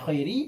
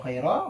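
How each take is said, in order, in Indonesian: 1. Kata ini berakhir dengan vokal i. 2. Kata ini berakhir dengan vokal a. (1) "dibaca jar" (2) "dibaca nasab"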